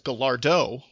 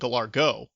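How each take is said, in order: First: The consonant before the final vowel is D. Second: The consonant before the final vowel is G. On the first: The speaker calls it right. "with a with a D" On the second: The speaker calls it wrong. "with a with a G"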